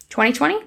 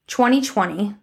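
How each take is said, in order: First: TWENTY TWENTY rising sharply as a question; double-check TWENTY TWENTY with an upturned end. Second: Said in the usual way. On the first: Real, not acted. Vlogger double-checking the year she just gave, questioning.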